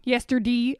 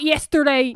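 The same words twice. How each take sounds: First: "yesterday" ending in "dee"; Delco "yesterday". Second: "yesterday" ending in a full "day"; standard vowel in "yesterday". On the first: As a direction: say "yesterday" with the last vowel as "ee". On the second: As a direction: say "yesterday" with a clear "ay" at the end. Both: Shown as a demonstration. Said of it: "this is what I'm saying".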